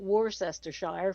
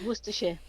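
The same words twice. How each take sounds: First: The last part sounds like 'shire'. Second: The last part sounds like 'sheer'. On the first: The speaker calls it wrong. "it's not Worcestershire for start" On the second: The speaker calls it right. "the shear isn't a shire ... it's a sheer sound"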